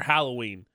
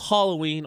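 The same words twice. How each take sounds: First: The first syllable sounds like howl. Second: The first syllable sounds like hall. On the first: "H-O-W-L Halloween" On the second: "H-A-L-L Halloween"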